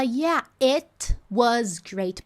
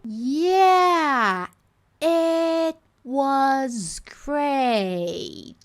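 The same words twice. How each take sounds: First: The t is clearly released with a burst. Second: The t is held without an audible release. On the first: "Então ela não fala" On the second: "Ela posiciona, mas ela não explode"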